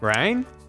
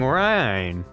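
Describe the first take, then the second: First: The pitch rises on the word. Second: The pitch falls on the word.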